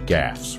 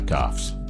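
First: The vowel sounds like the vowel in 'cat'. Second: The vowel sounds like the vowel in 'cot'. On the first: The speaker calls it right. "You mean gaffes" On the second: The speaker calls it wrong. "Not goffs"

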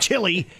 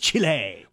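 First: The word ends with a plain "ee" sound. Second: The word ends with an added "eh" sound. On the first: The speaker calls it wrong. "It's not Chile" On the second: The speaker calls it right. "It's Chile"

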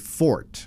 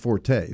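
First: The word is said as one syllable. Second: The word is said as two syllables. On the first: The speaker calls it right. "pronounced properly Fort" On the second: The speaker calls it wrong. "not Forte"

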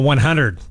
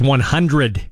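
First: The sounds of the word are slurred together. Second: Every sound of the word is clearly pronounced. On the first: The speaker calls it wrong. "not 100" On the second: The speaker calls it right. "It's 100"

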